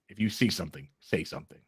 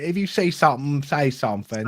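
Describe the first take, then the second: First: It is said in a New York accent. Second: It is said in a London accent.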